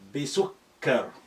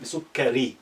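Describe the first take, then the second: First: The word ends on a bare consonant. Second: The word ends with an added vowel sound. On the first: "try to just stop with uh, imaginary سكون" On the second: "That's the complete pronunciation"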